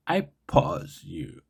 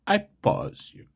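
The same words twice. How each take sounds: First: Slow, deliberate first try at the joke line; a slow, tentative first go at the line. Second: A playful, much higher redo of the joke; mock high retake. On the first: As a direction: say it slowly, testing the joke. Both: Shown as a demonstration. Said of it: "I can do better".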